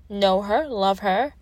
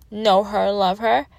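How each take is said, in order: Both takes have the same delivery.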